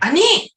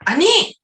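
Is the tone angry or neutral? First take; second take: angry; angry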